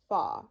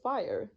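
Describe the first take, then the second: First: It is said in a Texan accent. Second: It is said in a standard accent. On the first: "you would say fa" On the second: "Instead of fire"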